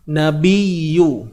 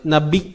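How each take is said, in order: First: The doubled sound flows smoothly without a catch. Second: The sound stops abruptly, like a glottal catch. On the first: The speaker calls it right. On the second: The speaker calls it wrong.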